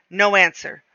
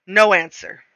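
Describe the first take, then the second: No difference in how they are said.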